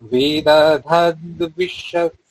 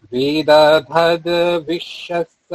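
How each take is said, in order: No difference in how they are said.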